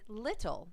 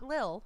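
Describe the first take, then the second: First: The middle T sound is pronounced. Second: The middle T sound is dropped. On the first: The speaker calls it right. "And little" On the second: The speaker calls it wrong. "not lil"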